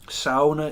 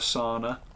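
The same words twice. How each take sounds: First: Sauna is said with the local Minnesota vowel. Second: Sauna is said with the usual standard vowel. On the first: The speaker calls it right. "Sauna is the correct way to pronounce it" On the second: The speaker calls it wrong. "It's not a sauna"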